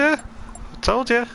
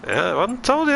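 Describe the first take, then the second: First: Drawn-out sing-song tease. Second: Sing-song tease. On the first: Repeated tease, drawn out slowly. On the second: Streamer teasing chat, sing-song. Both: Acted.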